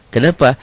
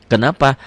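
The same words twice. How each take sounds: No difference in how they are said.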